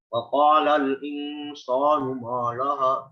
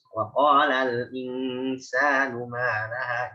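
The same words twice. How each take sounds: First: Every sound in the phrase is said heavy. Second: Only the q is heavy; other sounds are light. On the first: The speaker calls it wrong. "Jangan ... tebal semua" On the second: The speaker calls it right. "itu semuanya tipis"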